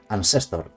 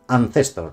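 First: "Ancestor" with a plain S sound, ann-SES-tor; "Ancestor" pronounced with S like most Spanish speakers; seseo pronunciation. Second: "Ancestor" with a lisped c, ann-THES-tor; "Ancestor" with the Spanish-from-Spain TH sound; Castilian theta. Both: Shown as a demonstration. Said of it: "Perdonadme que diga Ancestor y no Ancestor".

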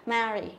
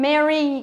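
First: "marry" with a wide, open æ; marry's flat E. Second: "Merry" with a short E, louder; true Merry E. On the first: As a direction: contrast "marry" with A as in "cat". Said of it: "Còn đây là marry". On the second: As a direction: say "Merry" with E as in "bed". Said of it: "thì đúng là Merry thật". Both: Shown as a demonstration.

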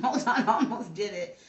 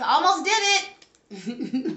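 First: Laughing through the words. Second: Drawn-out, stunned, half laughing; slow disbelief. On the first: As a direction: giggle it out, relieved at the near slip. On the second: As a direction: stretch it out in disbelief at the near slip. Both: Real, not acted. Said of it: "Did I just almost flip these cards?".

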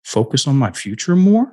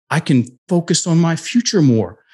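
First: "Focus on my future more?" rising high on MORE; unsure question, lifting "more" up at the end. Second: "I can focus on my future more." higher, falling firmly at the end; said like a statement. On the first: Client tries a new sentence for his coach, as a question. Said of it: "he said it like a question". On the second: Client restates it when the coach asks, as a statement. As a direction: declare it, landing "more" on a downward tune. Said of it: "Now say it like a statement". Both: Retold or imitated.

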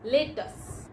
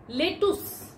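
First: Lettuce. said as LET-us; Lettuce. said rightly, as LET-us; correct pronunciation. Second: Lettuce. said as LET-oos; Lettuce. said wrongly, as LET-oos; common mispronunciation. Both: Shown as a demonstration. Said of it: "No, it's lettuce".

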